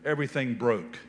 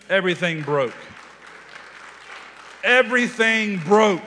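First: Said in the usual way. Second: Each repeat louder and higher; preacher's rising declaration; building proclamation. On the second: Acted. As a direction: swell from firm to a ringing shout. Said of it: "Two syllables".

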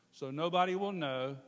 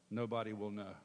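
First: "So nobody will know" pushed up, higher and louder; firmer "nobody". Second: Said in the usual way. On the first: Retold or imitated. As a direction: lean on "nobody" like a convinced thought. Temptation thought repeated, firmer.

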